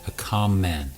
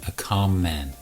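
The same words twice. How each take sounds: No difference in how they are said.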